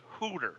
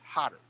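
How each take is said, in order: First: The name is said with an oo vowel and t. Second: The name is said with a short o and d. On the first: The speaker calls it wrong. "We're getting Hooter" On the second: The speaker calls it right. "It's Hodder"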